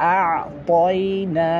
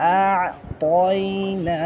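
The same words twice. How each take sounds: The two takes are said the same way.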